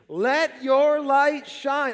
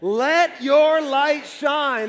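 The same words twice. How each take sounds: First: It is said with little energy. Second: It is said with strong conviction.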